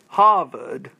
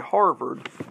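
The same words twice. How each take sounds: First: It is said in a New England accent. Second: It is said in a general American accent. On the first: "he or she would say Harvard" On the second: "a true New Englander wouldn't say Harvard"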